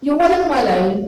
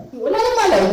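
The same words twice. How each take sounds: First: Said in the usual way. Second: "walang" jumps much higher, repeated for emphasis; emphatic repeat. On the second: Shown as a demonstration. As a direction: hit "walang" high the second time.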